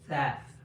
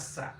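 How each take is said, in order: First: The consonant is a soft th sound. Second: The consonant is a hissing s sound. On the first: The speaker calls it right. "So it's that" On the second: The speaker calls it wrong. "It's not sa"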